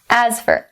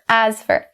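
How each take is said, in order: Both takes have the same delivery.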